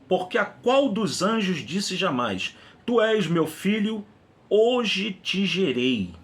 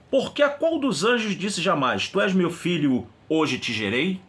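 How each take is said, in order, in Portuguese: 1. É lido com entonação plana de afirmação. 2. É lido com entonação interrogativa.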